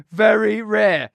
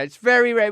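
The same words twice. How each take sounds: First: Very rare said slowly, both words hit hard and shouted; mock-insistent shout of very rare; stress on very rare. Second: Said in the usual way. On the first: Shown as a demonstration. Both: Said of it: "We just want to stress".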